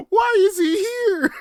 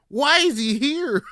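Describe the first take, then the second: First: High, loud, slow, cracking with laughter; laughing cry. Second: Loud, high, slow; shocked shouting. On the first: Acted. Repeating his own outrage, laughing high wail. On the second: Retold or imitated. Asking the foreman why the old man works there, loud disbelief. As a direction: demand it in disbelief. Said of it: "I'm like".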